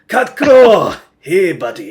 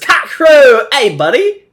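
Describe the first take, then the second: First: It is said in a put-on Spanish accent. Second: It is said in the speaker's plain accent.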